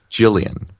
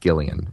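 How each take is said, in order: First: The name begins with a J sound. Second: The name begins with a hard G sound. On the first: The speaker calls it right. "I think it's Gillian. Like a J. A J sound" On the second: The speaker calls it wrong. "not Gillian"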